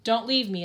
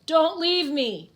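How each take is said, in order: First: Said in the usual way. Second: Slow, high, louder wail of desperation; trapped man wailing not to be left; wailing plea. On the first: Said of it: "it says". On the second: Acted. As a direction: drag out a begging wail, higher and louder. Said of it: "the Undertaker wails".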